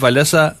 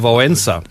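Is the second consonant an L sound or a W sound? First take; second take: L; W. First: The second consonant is a plain L sound. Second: The second consonant sounds like an English W. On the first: The speaker calls it wrong. "heißt der Walesa auch nicht Walesa" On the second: The speaker calls it right. "Der hat ein L mit Strich durch. Das ist wie im Englischen ein Well"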